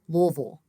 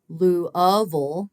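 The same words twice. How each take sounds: First: The word is said with two syllables. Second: The word is said with three syllables. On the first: "with two" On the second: "with three syllables"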